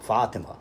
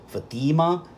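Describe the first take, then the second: First: The first syllable is long, the second short. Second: The first syllable is short, the second long. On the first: "The first syllable is long, while the second syllable is short" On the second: This is the form of the name in the Targum. "the first syllable is short, while the second syllable is long"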